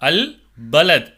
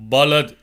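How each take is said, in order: First: It is said light and flat, tongue kept low. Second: It is said heavy, tongue raised and lips rounded. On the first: The speaker calls it right. "அவ்வளோதான்" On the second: The speaker calls it wrong. "அப்படின்னு படிக்கக்கூடாது"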